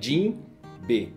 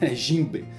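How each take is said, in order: First: The word is split into two separate parts. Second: The word is said as one joined unit. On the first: This is how it is said in Japan. "No Japão, né? Jin B. Eles separam" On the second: This is how it is said in Brazilian Portuguese. "Se você pegar a pronúncia aqui no português, vai ficar Jimbe"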